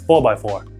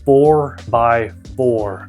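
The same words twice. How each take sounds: First: The r sounds are dropped, Boston style. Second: The r sounds are fully pronounced. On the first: The speaker calls it wrong. "instead of four by four" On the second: The speaker calls it right. "I should practice saying that"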